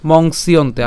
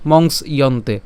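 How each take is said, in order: First: মংসিয়ন্তে flowing as a single word; joined together. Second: মংস / ইয়ন্তে with a break between; said separately. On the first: Teacher contrasts joined reading, মংসিয়ন্তে without a break. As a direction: link the s into "iyonte" in মংসিয়ন্তে. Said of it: "পুরোটিকে একসাথে উচ্চারণ করলে". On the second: Teacher shows the split reading, মংস and ইয়ন্তে apart. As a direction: stop after মংস, then say ইয়ন্তে. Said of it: "আলাদা উচ্চারণ করলে". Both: Shown as a demonstration.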